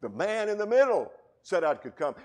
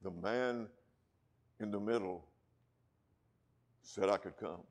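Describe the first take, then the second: First: Full-voiced American preacher, louder and higher; no brogue, ringing pulpit delivery; plain preaching. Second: A hint of a Scottish brogue, soft and unhurried; lightly imitating a Scottish preacher; quiet, understated Scottish accent. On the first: Shown as a demonstration. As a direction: shout it out as your own proclamation. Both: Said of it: "in that Alistair Begg Scottish brogue".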